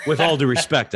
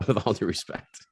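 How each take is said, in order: First: Louder, laughing through it. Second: Said in the usual way. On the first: Real, not acted. The host half-apologizing to a guest, laughing. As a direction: tack it on with a laugh.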